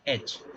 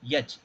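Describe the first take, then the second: First: The letter name begins with a plain vowel. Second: The letter name begins with a 'y' sound. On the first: The speaker calls it right. "It is called एच" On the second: The speaker calls it wrong. "It is not यच"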